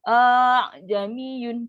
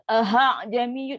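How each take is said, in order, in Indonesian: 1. Ada vokal panjang yang dipanjangkan sebelum 'jamiyun'. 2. Ada bunyi h yang jelas sebelum 'jamiyun'. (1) "Kita panjangkan A" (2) "itu dah beri ha pula"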